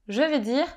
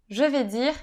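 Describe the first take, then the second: Both takes have the same delivery.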